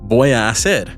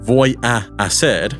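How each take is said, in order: First: The two a vowels blend into one. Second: The two a vowels are said separately. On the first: The speaker calls it right. "The two A vowels are blended" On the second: The speaker calls it wrong. "it doesn't need to be voy a hacer"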